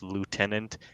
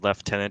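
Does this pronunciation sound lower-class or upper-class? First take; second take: lower-class; upper-class. First: It is said with a lower-class pronunciation. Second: It is said with an upper-class pronunciation. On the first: The speaker belongs to the lower classes. "the lower classes pronounce it as lieutenant" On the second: The speaker belongs to the higher classes. "the higher classes pronounces it as lieutenant"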